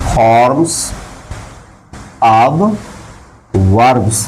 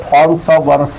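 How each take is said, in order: First: "forms", "of", "verbs" with long pauses between; word by word. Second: Said in the usual way. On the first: Shown as a demonstration. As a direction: dictate "forms of verbs" one isolated word at a time. Dictates term word by word. ("forms of verbs" हर शब्द के बाद लंबा रुककर)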